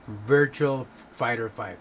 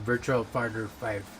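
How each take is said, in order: First: The phrase is said slowly and carefully. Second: The phrase is said at normal, hurried speed. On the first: The speaker calls it right. "There you go. I have to like do it out slow motion" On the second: The speaker calls it wrong. "I can't even say it right"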